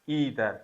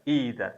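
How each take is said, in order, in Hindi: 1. शब्द की शुरुआत 'ee' ध्वनि से होती है। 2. शब्द की शुरुआत 'ee' ध्वनि से होती है।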